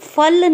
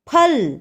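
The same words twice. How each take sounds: First: It starts with lip against teeth, an f. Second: It starts with closed lips and a puff. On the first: The speaker calls it wrong. "इसे हम फल नहीं कहते" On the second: The speaker calls it right. "अपने दोनों lips को बंद करते हुए जोर से बोलेंगे फ"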